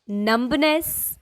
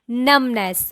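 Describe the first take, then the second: First: The middle B is sounded. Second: The middle B is silent. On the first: The speaker calls it wrong. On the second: The speaker calls it right. "mid B is silent here"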